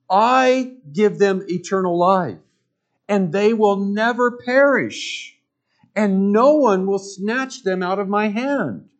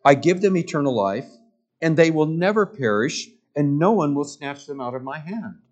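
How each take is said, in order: First: Raised, emphatic preacher quote, higher and louder; forceful preaching. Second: Said in the usual way. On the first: Acted. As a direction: proclaim it like a promise from the pulpit. Preacher quoting Jesus with force.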